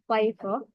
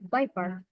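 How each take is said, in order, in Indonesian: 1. Diucapkan dengan aksen Inggris. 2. Diucapkan dengan aksen Amerika. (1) "In British" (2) "And in American"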